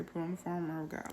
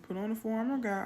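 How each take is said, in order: First: Fast, softer mumbled repeat; quiet echo. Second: Put-on fast, higher childlike gabble; child reciting. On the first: Retold or imitated. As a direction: mumble it back softly and quickly. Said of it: "I say, like that". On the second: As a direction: rush it like a little girl. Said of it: "She goes".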